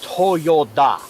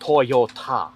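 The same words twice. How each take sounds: First: The last syllable is said with a 'd' sound. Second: The last syllable is said with a 't' sound. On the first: This is the original company name. "the original Toyota company was Toyota" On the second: This is the changed, current name. "not Toyota"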